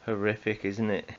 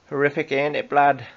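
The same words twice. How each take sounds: First: Said in the usual way. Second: A bad stab at a Geordie accent; mock Geordie accent. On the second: Host mocking a Geordie accent on air. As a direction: try it the Geordie way, half-hearted. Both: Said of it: "I can't do a Geordie accent".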